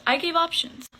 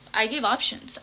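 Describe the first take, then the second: First: "I gave options" pushed higher and louder, stress on "gave"; emphatic repeat. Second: Said in the usual way. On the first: Shown as a demonstration.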